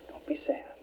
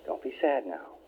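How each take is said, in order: First: Soft unvoiced whisper; whispered comfort. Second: Mother soothing her grown son, lower and tender; gentle mother comforting. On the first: Mother whispering comfort to her son from her hospital bed. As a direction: breathe it to him like a mother at his bedside. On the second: Retold or imitated.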